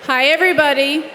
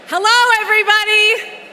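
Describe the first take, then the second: First: It is said in her normal voice. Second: It is said in a commanding mom voice.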